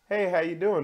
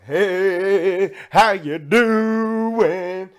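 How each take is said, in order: First: It is said in a plain, calm voice. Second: It is said in a loud, excited voice. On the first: "Like you could say" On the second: "Or you could be like"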